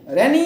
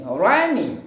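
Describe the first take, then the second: First: rainy said re-NEE, short first vowel and high loud end; wrong stress. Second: rainy with a long open RAI, then falling ny; stress on first syllable. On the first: Teacher showing the mistake, rainy with wrong stress. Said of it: "रैनी नहीं". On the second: Teacher correcting, rainy with first-syllable stress. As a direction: draw out the start of rainy, drop the end. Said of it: "like this". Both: Shown as a demonstration.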